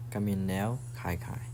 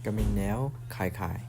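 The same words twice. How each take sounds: The two takes are said the same way.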